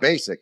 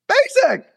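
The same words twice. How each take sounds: First: The word is said flatly, without excitement. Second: The word is said excitedly, with energy.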